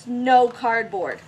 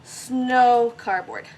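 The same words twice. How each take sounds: First: Snow cardboard drawn out slowly; naming it. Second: Snow cardboard even slower, savoured; naming it again. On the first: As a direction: say snow cardboard slow and proud like a new name. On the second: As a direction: repeat Snow cardboard, stretching it out. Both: Real, not acted. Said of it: "That's what we're calling it".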